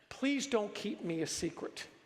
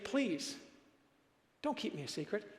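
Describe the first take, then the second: First: It flows without a pause after please. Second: There is a pause right after please.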